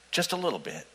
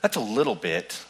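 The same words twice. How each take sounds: First: Hushed aside. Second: Said in the usual way. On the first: Shown as a demonstration. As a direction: drop to a near whisper, tiny and soft.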